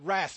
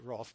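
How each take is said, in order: First: The word has an American pronunciation. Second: The word has an Australian pronunciation. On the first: "I know in America they say" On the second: "I've just grown up in Australia and I only say wrath"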